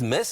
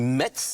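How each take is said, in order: First: The final t-z sound is silent. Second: The final t-z sound is pronounced. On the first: This is the French way of saying it. "on le prononce à la française" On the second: This follows the written spelling. "ça s'écrit Metz"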